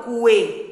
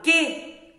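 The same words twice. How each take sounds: First: Cuê said with the U voiced, kwe; wrong pronunciation. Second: Que said as ke, the U silent; right pronunciation. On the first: Teacher showing pupils the wrong way, U voiced. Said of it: "eu não falo cuê". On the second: Teacher showing pupils the right sound, U silent. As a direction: say que plainly as ke. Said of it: "Como eu falo que". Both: Shown as a demonstration.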